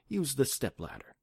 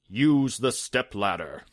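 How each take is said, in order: First: It is said in a soft, comforting voice. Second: It is said in a booming genie voice.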